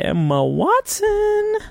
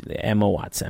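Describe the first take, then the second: First: High, slow, stretched-out name; long held syllables, pitched way up; drawn-out search filler. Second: Said in the usual way. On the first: Real, not acted. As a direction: draw the name out high while typing. Stretches name while googling it.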